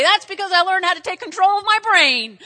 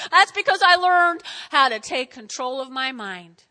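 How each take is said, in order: First: Loud, high, proud proclamation; triumphant declaration. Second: Loud start settling into measured emphasis; emphatic restatement. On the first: Patient answering the puzzled doctor, loud and triumphant. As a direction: proclaim it at full preaching force. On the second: Patient repeating the answer to the doctor, emphatic. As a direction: drive it home loudly at usual pitch. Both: Acted.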